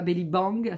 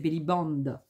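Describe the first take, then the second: First: The last word ends with an 'ng' sound. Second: The last word ends with an 'nd' sound. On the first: The speaker calls it wrong. "C'est pas belly bang" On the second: The speaker calls it right. "c'est belly band"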